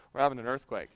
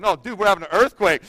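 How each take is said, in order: First: Low, soft, offhand remark; casual. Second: Urgent correction. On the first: Brother-in-law casually announcing an earthquake, low and offhand. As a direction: toss it off casually, quietly. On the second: Pastor correcting his too-casual brother-in-law, mildly alarmed. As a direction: insist on it with retold urgency. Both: Retold or imitated. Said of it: "he said it so casually".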